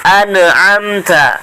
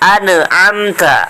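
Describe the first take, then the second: No difference in how they are said.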